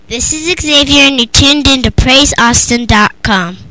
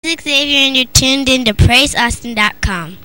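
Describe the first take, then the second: First: It is said a little louder. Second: It is said at normal volume.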